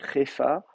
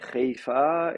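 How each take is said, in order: First: The first vowel is a plain contracted e. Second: The first vowel is e with a slight y-glide. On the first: "carrément faire une contraction, euh, Hefa" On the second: "évoluer vers une voyelle E, mais en maintenant une mouillure"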